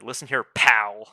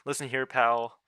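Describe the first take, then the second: First: It is said with strong emphasis. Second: It is said flatly, without emphasis.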